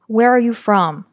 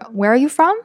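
First: The voice falls at the end. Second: The voice rises at the end.

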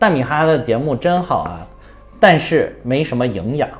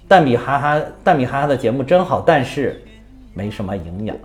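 First: The pause falls before the word 但是. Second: The pause falls right after the word 但是.

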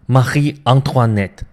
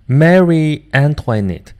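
First: The name is pronounced with French sounds. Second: The name is pronounced with English sounds. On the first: The speaker calls it right. "那么按照法语来，应该怎么读呢？" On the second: The speaker calls it wrong. "这是我按英语的读音方式来读的啊"

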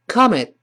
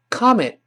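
The two takes are said the same way.

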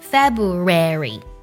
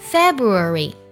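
First: It is said with an American accent. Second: It is said with a British accent. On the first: "而美式的发音是February" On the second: "英式的发音是February"

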